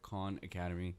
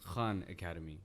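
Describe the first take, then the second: First: Khan has the English pronunciation. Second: Khan has the Urdu pronunciation. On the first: "and then they understand" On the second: "In like Urdu, it's pronounced"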